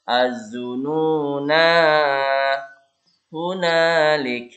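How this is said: It stops after zununa, with a long final vowel. The reciter stops at this word. "jika waqaf, waqaf di sini ya, dibaca panjang nanya"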